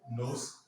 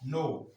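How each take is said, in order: First: The word ends with an audible S sound. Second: The word ends in a vowel, with no S sound. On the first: The speaker calls it wrong. "You can't say nos" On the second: The speaker calls it right. "You don't pronounce the S"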